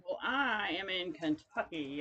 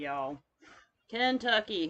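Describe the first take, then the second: First: Said in the usual way. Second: Kentucky with a broad southern Kentucky accent, first vowel like "can"; muddy Kentucky accent. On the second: Shown as a demonstration. Showing viewers her muddy Kentucky accent. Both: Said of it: "hence the muddy southern accent".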